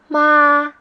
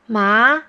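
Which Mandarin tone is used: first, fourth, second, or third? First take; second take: first; second. First: It is said with the first tone. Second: It is said with the second tone.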